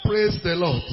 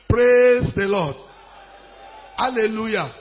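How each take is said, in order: First: Said in the usual way. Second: Louder, drawn-out PRAISE; rousing call. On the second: Real, not acted. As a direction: hold Praise long and project it. Repeats call to rouse congregation.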